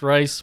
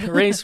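First: The vowel sounds like the one in 'rice'. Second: The vowel sounds like the one in 'race'. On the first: The speaker calls it wrong. "we've called it the Rice family" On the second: The speaker calls it right. "they pronounce it the Race family"

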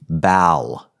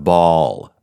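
First: The vowel is a front 'a' sound. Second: The vowel is a back 'ah' sound. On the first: The word would have one L. "If ball was spelled B-A-L, it would be bal" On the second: The word has two L's. "instead of ball"

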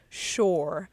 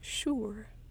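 First: The vowel sounds like the word shore. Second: The vowel is a short 'ur' sound. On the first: "how many people say shore, like the shore, like the ocean" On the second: "when it's actually like sure"

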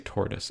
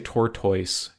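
First: The ending sounds like 'tus'. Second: The ending sounds like 'toys'. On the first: The speaker calls it right. "you say tortoise" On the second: The speaker calls it wrong. "You don't say tortoise"

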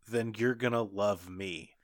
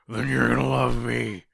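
First: It is said in a normal voice. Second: It is said in a gruff Batman voice.

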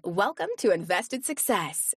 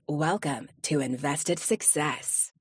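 First: The voice is pitched higher and brighter. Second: The voice is pitched lower and deeper. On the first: "it might be something like" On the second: "something down there"

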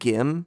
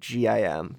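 First: It is said as one single word. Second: It is said as three separate letters. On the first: "you pronounced it as a word" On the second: "I think G-I-M"

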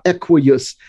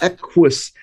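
First: The ending has an extra syllable, like 'ee-us'. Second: The qu blends together, ending in a single 'us'. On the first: The speaker calls it wrong. "It's not equius" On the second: The speaker calls it right. "the first U goes with the Q and the second U makes the us sound"

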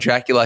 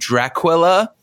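First: The name is said in a plain, ordinary accent. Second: The name is said in an exaggerated foreign accent. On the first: "he doesn't call Dracula Dracula" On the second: "He calls him Dracula. Because of his ridiculous accent"

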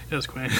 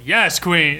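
First: It sounds defeated and resigned. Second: It sounds enthusiastic and supportive, drag-style.

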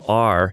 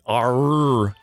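First: The R sound is plain and light. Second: The R sound is hit hard and drawn out. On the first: "just a regular R" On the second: "they really, really hit that R"

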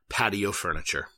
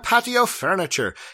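First: It is said in the speaker's normal accent. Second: It is said in a put-on Irish accent.

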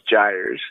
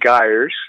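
First: The word is said with a North American pronunciation. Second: The word is said with a British pronunciation. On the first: "in North America it's pronounced Gyres" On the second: "the British pronounce it Gyres"

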